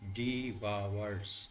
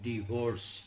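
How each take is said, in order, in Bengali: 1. দ্বিতীয় সিলেবলটি 'vowers'-এর মতো শোনায়। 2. দ্বিতীয় সিলেবলটি 'vorce'-এর মতো শোনায়। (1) "এটা হচ্ছে হচ্ছে ডিভাওয়ার্স" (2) "মানে এই জিনিসটা ভুল উচ্চারণ"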